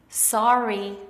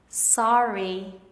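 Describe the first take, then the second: The two takes are said the same way.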